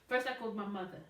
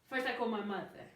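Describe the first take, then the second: Both takes have the same delivery.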